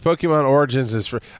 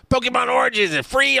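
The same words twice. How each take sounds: First: It is said in the speaker's normal voice. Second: It is said in an imitated, put-on voice.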